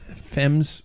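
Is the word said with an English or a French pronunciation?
English. The word is pronounced the English way. The speaker calls it wrong. "just sounds dumb when you say it that way"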